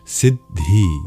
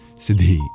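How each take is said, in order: First: The d is held, making a slight pause mid-word. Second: A single short d, with no pause mid-word. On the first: The speaker calls it right. "it works out to a slight pause between the syllables" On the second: The speaker calls it wrong. "rather than just Siddhi"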